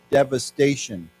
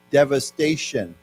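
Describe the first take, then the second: First: Devastation said once more, falling; repeat the word. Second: Devastation said slowly and clearly; slow model word. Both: Shown as a demonstration. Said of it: "as a noun".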